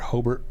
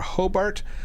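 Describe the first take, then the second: First: It is said in the local pronunciation. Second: It is said in a non-local pronunciation.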